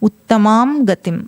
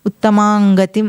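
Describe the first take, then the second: First: The nasal is fully pronounced before 'gatim'. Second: The nasal blends into 'gatim' as 'anga'. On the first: The speaker calls it right. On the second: The speaker calls it wrong.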